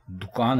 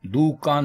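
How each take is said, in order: First: दुकान as du-kaan; दुकान with short u, dukaan; correct pronunciation. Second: दुकान as do-kaan; दुकान with o, dokaan; wrong pronunciation. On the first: Teacher giving the correct दुकान, dukaan. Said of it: "बल्कि दुकान है". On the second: Teacher rejecting दुकान said dokaan. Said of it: "दुकान नहीं है". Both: Shown as a demonstration.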